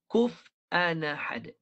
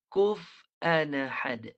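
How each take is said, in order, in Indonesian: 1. Hamzah dihilangkan dan kedua kata itu menyambung. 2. Hamzah dihilangkan dan kedua kata itu menyambung.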